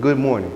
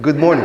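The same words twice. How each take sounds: First: It is said with low energy. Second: It is said with high, wakeful energy.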